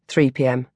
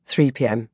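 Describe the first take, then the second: No difference in how they are said.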